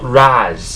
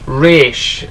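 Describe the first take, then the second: First: The name ends with a buzzing z sound. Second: The name ends with a hissing s sound. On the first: The speaker calls it wrong. "not Raz, not R A Z" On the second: The speaker calls it right. "It's pronounced Ra's, as in R A S"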